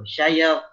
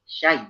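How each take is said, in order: First: The sound is split into two syllables, sa-ya. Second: The sound is said as one syllable, shai. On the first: The speaker calls it wrong. "saya jangan" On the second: The speaker calls it right. "Syai, syai"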